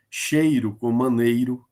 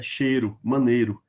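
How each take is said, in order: First: "Cheiro com maneiro" with a clear ei in both; full EI diphthong. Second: "Cheiro, maneiro" with ei reduced to a plain e; colloquial reduced EI. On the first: Teacher giving a rhyme example, full ei in "Cheiro" and "maneiro". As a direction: sound the i glide in "Cheiro" and "maneiro". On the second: Teacher showing students everyday speech, "Cheiro, maneiro" as "chêro, manêro". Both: Shown as a demonstration. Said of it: "às vezes a gente chama maneiro".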